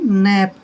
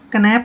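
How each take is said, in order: First: The word starts without a k sound. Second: The word starts with a k sound. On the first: The speaker calls it right. "इसको सिर्फ बोलेंगे नैप" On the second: The speaker calls it wrong. "कनैप नहीं बोलेंगे"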